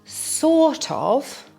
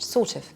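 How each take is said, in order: First: Both words are pronounced clearly and fully. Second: The phrase is blurred until it is barely heard.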